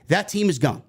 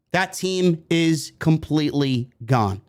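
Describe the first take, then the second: First: Said in the usual way. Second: "That team is completely gone" slowly, word by word; slow emphatic restatement. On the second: Real, not acted. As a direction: spell out the finality of "completely gone", unhurried. Slower repeat for emphasis.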